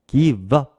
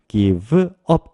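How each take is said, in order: First: Said quickly, the v sound runs into up. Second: Said slowly, the two words kept apart. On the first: "조금 부드럽게 빠르게 발음하면 give 끝에 있는 ve와 up, up이 조금 빠르게 발음돼서" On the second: "천천히 발음하면"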